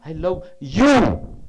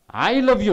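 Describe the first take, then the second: First: The stress falls on the word you. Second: The stress falls on the word I. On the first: Only this person is loved, not anyone else. "When you focus on you" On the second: It is the speaker who loves, not someone else. "I love you, not my brother"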